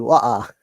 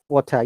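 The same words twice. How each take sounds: First: It is said in a Cockney accent. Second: It is said in a standard British accent. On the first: "Cockney accent" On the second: "In British accent"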